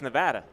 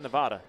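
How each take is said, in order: First: The word is said the local way. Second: The word is said the outsider way. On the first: This is how residents say the state's name. The speaker calls it right. "how they say Nevada? It's Nevada" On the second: This is how non-residents say the state's name. The speaker calls it wrong. "not Nevada"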